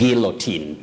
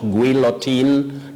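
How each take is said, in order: First: The u after the g is silent. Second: The u after the g is sounded. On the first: The speaker calls it right. "Letter U is silent in that word" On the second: The speaker calls it wrong. "Not guillotine"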